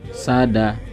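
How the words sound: The two syllables are joined quickly together.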